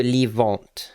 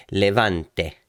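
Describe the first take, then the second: First: Said in the usual way. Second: "Levante" in Italian, sounding the final e; Italian pronunciation. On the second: Shown as a demonstration. Host correcting himself, "Levante" with Italian accent. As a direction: say "Levante" the Italian way, three syllables. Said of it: "I say it in Italian".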